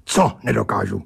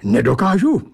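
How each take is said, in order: First: Lower, firm demanding question; indignant challenge. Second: Higher, rising indignant question; indignant protest. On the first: Narrator demands what he cannot do, indignant. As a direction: push back, leaning on the first word. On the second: Narrator objects to the creature's taunt, indignant. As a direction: bristle at being doubted, as a question. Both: A narrator's reading. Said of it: "ohradil jsem se".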